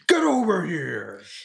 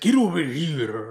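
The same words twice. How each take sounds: First: It is said in clear, unaccented English. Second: It is said with a heavy Japanese accent.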